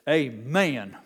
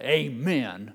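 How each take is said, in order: First: The word is drawn out into three syllables. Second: The word is said with two syllables.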